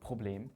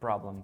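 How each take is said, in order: First: It is pronounced with German sounds. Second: It is pronounced with English sounds.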